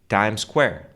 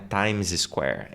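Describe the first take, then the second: First: One single S sound joins the two words. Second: Two separate S sounds are said between the words. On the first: The speaker calls it right. "É um S só" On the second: The speaker calls it wrong. "Não é Times Square"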